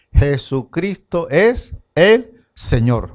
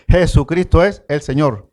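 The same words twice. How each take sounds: First: Slow, each word laid down deliberately; slow declaration. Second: Said in the usual way. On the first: Shown as a demonstration. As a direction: spell out "Jesucristo es el Señor" slowly and weightily. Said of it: "todos tienen que confesar". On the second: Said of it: "Otra vez".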